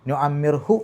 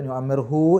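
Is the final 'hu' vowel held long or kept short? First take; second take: short; long. First: The final vowel is kept short. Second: The final vowel is held long. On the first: The speaker calls it right. "എന്നേ പറയൂ" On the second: The speaker calls it wrong. "എന്ന് നീട്ടി പറയില്ല"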